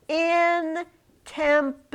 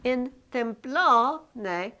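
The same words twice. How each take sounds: First: IN stretched and stressed. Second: "templone" drawn out slowly; stress on templone. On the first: Teacher stressing "in" for the class. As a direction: lean on the word "in" in "in templone". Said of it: "here they did it again". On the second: Teacher slowly reading "In templone" aloud. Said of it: "it just means it's a question". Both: Shown as a demonstration.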